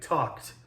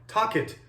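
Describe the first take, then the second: First: The ending joins the word in one syllable. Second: The ending is a separate second syllable. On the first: The speaker calls it right. "You have to squish it into one syllable" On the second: The speaker calls it wrong. "It's logical, but that's not how we say it"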